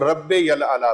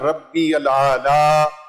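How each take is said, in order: First: A 'y' sound links the words: 'rabbe yal aala'. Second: No 'y' sound links them: 'rabbi al aala'. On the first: The speaker calls it wrong. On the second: The speaker calls it right.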